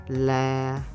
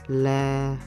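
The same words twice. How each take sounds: First: The pitch stays level and flat. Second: The same.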